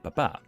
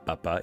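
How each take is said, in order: First: The stress is on the second syllable. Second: The stress is on the first syllable. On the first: It means dad. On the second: It means potato.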